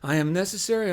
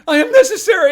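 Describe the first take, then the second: First: It is said quietly and weakly. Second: It is said loudly and forcefully. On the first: The speakers feel uncomfortable saying it. The speaker calls it wrong. "You sound like a bunch of losers" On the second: The speakers say it with conviction. The speaker calls it right.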